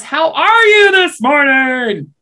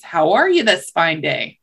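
First: High, slow, booming shout; shouting to the deaf. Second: Said in the usual way. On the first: Acted. Rabbit greets a seemingly deaf tar baby, loud slow shout. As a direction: stretch each word out loudly for deaf ears. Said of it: "thinking that tar baby is deaf". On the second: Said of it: "the rabbit tries again".

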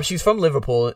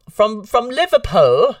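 First: Said in the usual way. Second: Drawn-out, higher-pitched bad Liverpool accent; terrible Liverpool accent. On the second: Host jokingly naming Nicole's hometown, bad Liverpool accent. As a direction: put on a badly faked Liverpool accent, slowly. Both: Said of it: "that was a terrible accent".

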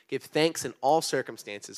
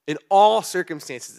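First: Said in the usual way. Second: "all" drawn out, higher and louder, slow; stress on all. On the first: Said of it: "In all circumstances, it says give thanks". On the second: Shown as a demonstration. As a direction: lean hard on "all" in "In all circumstances". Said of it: "it says give thanks".

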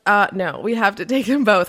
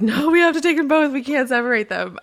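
First: Said in the usual way. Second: Emotional insistence. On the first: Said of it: "we were like". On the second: Retold or imitated. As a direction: insist tearfully that the pair stays together. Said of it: "Nick and I, like".

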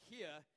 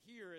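First: Here said without the R, like hee-ah; Boston here. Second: Said in the usual way. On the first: Shown as a demonstration. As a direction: drop the R in here, Boston style. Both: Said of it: "they take away R's on words like".

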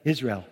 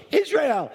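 First: Said in the usual way. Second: High-pitched delighted cry of recognition; excited exclamation. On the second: Retold or imitated. Preacher acting his joy at meeting Israelis, excited. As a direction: burst out high with sudden excitement. Retold delighted reaction to answer.

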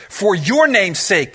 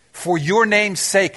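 First: "your" leaned on, slow; stress on your. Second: "your" stressed, slow, falling. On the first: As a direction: hit "your" in "For your name's sake". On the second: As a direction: press "your" in "For your name's sake". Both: Shown as a demonstration. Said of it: "do you see that?".

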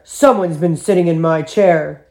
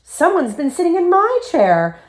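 First: Daddy Bear growl. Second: Very high, indignant mother bear; astonished storybook mother, high-voiced; Mommy Bear exclaiming. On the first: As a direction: growl it like an affronted big bear. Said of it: "he growled". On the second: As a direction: exclaim it with pitch way up. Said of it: "Mommy Bear exclaimed". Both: A narrator's reading.

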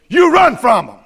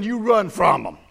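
First: "run" hit hard and much louder; loud emphatic repeat. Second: Said in the usual way. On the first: Shown as a demonstration. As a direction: punch it out at the congregation. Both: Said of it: "I'll say it emphatically".

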